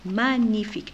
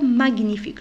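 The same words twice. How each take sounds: First: No separate hard G sound is heard. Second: A separate hard G sound is heard. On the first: The speaker calls it right. "je ne prononce pas la lettre G" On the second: The speaker calls it wrong. "je ne dis pas magnifique"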